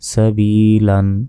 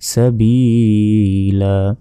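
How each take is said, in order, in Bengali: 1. শব্দটি n ধ্বনি দিয়ে শেষ হয়। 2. শব্দটি একটি দীর্ঘ a স্বরধ্বনি দিয়ে শেষ হয়। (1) "দুই জবর" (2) "থামলে ... ওয়াকফ করলে"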